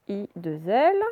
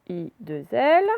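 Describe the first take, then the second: The two takes are said the same way.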